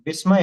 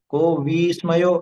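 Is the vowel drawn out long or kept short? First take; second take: short; long. First: The vowel is kept short. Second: The vowel is drawn out long. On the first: The speaker calls it right. "विस्मय है ना" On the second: The speaker calls it wrong. "ऐसा लंबा नहीं खींचना"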